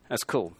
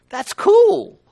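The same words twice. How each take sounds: First: Low, soft aside; understated appreciation. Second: Very high, loud burst of enthusiasm; exultant delight. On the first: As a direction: say it quietly, dropped down in pitch. Quiet repeat of earlier exclamation. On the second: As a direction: exclaim it with COOL held high and loud. Exulting over his point. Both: Real, not acted.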